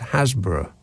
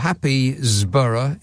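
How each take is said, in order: First: It is said in two syllables, like Hasbro. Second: It is said in four syllables, as spelled.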